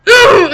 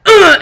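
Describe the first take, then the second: First: Very high loud "ugh" grunt; bigger, shouted grunt; mock grunt. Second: High loud grunt "ugh"; mock grunt. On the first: Friend describing her own part, a louder mock grunt. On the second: Retelling the friend's sex talk, a mock loud grunt. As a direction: grunt it out, hammed-up. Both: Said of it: "grunting about it".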